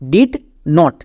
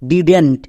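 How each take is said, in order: First: It is said as two separate full words. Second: It is said as one contracted word. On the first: The speaker calls it wrong. "এখানেও আমাদের দুটো word আছে" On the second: The speaker calls it right. "একে আমরা একসঙ্গে উচ্চারণ করব ডিডেন্ট"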